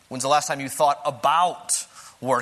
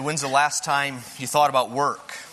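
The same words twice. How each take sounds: First: The word 'about' is stressed. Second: The word 'about' is not stressed.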